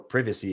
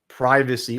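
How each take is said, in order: First: It is said with a British pronunciation. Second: It is said with an American pronunciation.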